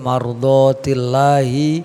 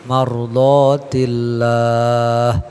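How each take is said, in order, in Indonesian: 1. Kata ini berakhir dengan vokal. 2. Kata ini berakhir dengan konsonan, vokalnya dihilangkan. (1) "seperti mardotillahi" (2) "menjadi mardotillah, enggak hi lagi karena dia udah diwakofin"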